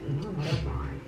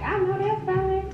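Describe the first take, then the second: First: It is said in a shady, sarcastic tone. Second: It is said in an excited, enthusiastic tone.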